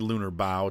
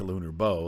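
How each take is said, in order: First: The word bow rhymes with cow. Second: The word bow rhymes with go. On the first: The name refers to the front of a ship. "because it is a ship and we're talking about a bow and a stern" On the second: The name refers to a weapon for hunting. "it could be a bow because you're hunting with it"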